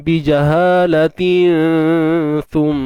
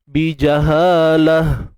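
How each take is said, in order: First: The word ends with tin, linked onward. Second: The word ends with a soft h sound. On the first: The reciter continues into the next word. "Kalau kita sambung tuan-puan, ta tu hidup macam biasalah" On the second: The reciter stops on this word. "Kalau kita berhenti, dia bunyi ha lah"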